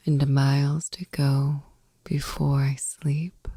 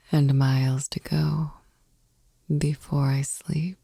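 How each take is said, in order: Both takes have the same delivery.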